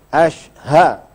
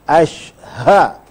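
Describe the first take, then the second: Both takes have the same delivery.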